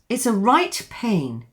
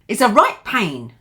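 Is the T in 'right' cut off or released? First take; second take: released; cut off. First: The T in right is fully released. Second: The T in right is cut off. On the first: The speaker calls it wrong. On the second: The speaker calls it right.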